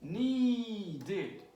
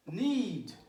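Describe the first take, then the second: First: "Needed," as a long, higher NEE, then DED; two syllables. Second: "Need," in a single louder beat; one syllable. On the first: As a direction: stretch the first syllable of "Needed," and add DED. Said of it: "two syllables". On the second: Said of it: "one syllable". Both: Shown as a demonstration.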